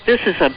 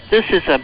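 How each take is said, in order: Both takes have the same delivery.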